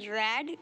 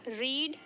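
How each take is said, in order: First: The vowel is a short 'e' sound. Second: The vowel is a long 'ee' sound. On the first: It is the past form of the verb. "इसको बोलते हैं रेड" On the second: It is the present form of the verb. "हम इसे प्रोनाउंशिएट करते हैं रीड"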